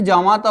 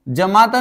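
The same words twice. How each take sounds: First: जामाता said with a long first aa, jaa-maa-ta; the right form जामाता, long aa at the start; correct long aa. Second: जमाता said with a short first a, jə-maa-ta; जमाता with a clipped first vowel, jəmata; the wrong form जमाता, first a kept short. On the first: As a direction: stretch the first vowel of जामाता into aa. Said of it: "जामाता होता है". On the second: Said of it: "जमाता नहीं होता बच्चे". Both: Shown as a demonstration.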